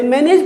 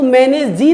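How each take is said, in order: First: Said in the usual way. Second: मैनेज जी with a spoken final E, wrongly; wrong pronunciation. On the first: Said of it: "मैनेज पढ़ते हैं". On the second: Shown as a demonstration. Teacher shows students the wrong way, sounding the silent E. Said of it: "मैनेज जी नहीं पढ़ते".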